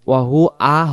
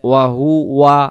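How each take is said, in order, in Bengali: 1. শব্দটি দুটি আলাদা অক্ষরে ভেঙে যায়। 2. শব্দটি মসৃণ টানে একসাথে মিশে যায়। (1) "ওয়া হু আ হয়ে যায়" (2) "উচ্চারণ হবে ওয়া হুয়া আলা"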